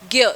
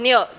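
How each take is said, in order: First: It is said with a 'gy' sound. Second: It is said with a 'dny' sound. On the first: This is the Hindi pronunciation. "Hindi में इसको इसका उच्चार होता है ज्ञ" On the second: This is the Marathi pronunciation. "Marathi में इसको ज्ञ पढ़ते हैं"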